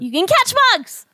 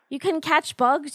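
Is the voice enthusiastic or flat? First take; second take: enthusiastic; flat. First: It is said with lively, enthusiastic energy. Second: It is said in a fairly flat, unexcited way.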